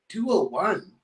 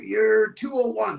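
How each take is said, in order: First: "two oh one" lifted into a question; puzzled echo. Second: Said in the usual way. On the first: Retold or imitated. Renter queries "two oh one" with a puzzled rise. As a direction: repeat "two oh one" with a rising, doubting end.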